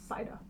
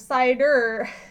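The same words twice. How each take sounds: First: The word ends without an R sound. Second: The word ends with an R sound. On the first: "the reason it's pronounced that way" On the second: "instead of cider"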